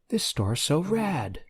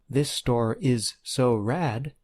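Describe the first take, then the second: First: The verb 'is' is reduced and contracted. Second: The verb 'is' is said in full.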